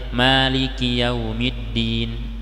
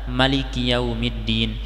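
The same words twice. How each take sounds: First: The first vowel of Maliki is long. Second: The first vowel of Maliki is short. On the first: "yang biasa kita dengar" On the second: "mimnya dipendekkan"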